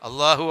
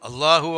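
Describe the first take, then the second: Both takes have the same delivery.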